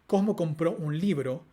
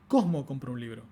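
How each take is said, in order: First: The main stress falls on the final word. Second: The main stress falls on the first word. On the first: It answers what was bought. The speaker calls it right. "con acento nuclear en un libro, con foco en un libro" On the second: It answers who did the buying. The speaker calls it wrong. "con foco en otra palabra, por ejemplo en el sujeto"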